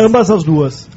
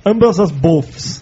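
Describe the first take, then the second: First: Said in the usual way. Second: Very slow, drawn-out joke; slow mock English. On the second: Shown as a demonstration. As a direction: stretch it out slowly as a pun.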